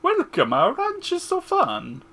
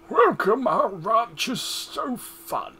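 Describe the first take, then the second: First: It is said in a put-on Mario voice. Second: It is said in a normal voice.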